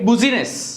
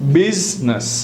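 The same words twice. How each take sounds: First: The middle i is sounded, giving three syllables. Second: The middle i is silent, giving two syllables. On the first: The speaker calls it wrong. "we write business" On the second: The speaker calls it right. "the pronunciation is business"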